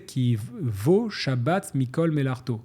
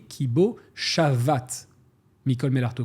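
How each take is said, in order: First: The third word is said with a doubled b. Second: The third word is said with a v. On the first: It names the Sabbath as gathering all the works. The speaker calls it wrong. "je faisais une erreur euh, de lecture" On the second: It says that he stopped and rested. The speaker calls it right. "ça se dit qui vaut Shavat"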